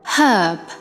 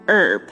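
First: The h at the start is pronounced. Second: The h at the start is silent. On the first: "但是在英音里面呢是读herb，是以H 的发音开头的" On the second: "它在美音里面呢我们是读herb"

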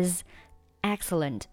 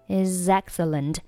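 First: The two words are said with a separation. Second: The two words run together without a break. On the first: "如果你想要强调这个单词的话呢，你可以选择不连读" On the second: "那is 和后面的excellent 可以连读成is excellent"

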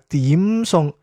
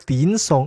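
First: The first syllable ends with closed lips, m. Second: The first syllable ends with the lips open. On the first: The speaker calls it right. "係點餸。这最后一定要闭嘴" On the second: The speaker calls it wrong. "唔係點餸"

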